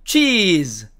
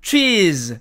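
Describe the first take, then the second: No difference in how they are said.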